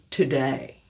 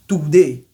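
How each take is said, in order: First: "today" slow, aspirated T, gliding "day"; "today" with full E-I diphthong; right today. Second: "today" with flat pure E, louder; "today" said without the glide; wrong today. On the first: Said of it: "c'est today". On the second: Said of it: "ce n'est pas today". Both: Shown as a demonstration.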